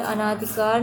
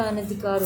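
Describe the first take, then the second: First: "अनाधिकार" with long naa; wrong form demonstrated. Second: "अनधिकार" with short na; correct form demonstrated. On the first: Teacher rejecting misspelling, "अनाधिकार" with stretched second vowel. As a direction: say "अनाधिकार" as a-naa-dhi-kaar. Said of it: "नहीं होता". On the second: Teacher giving right spelling, "अनधिकार" with short second vowel. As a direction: say "अनधिकार" as a-na-dhi-kaar. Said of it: "होता है". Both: Shown as a demonstration.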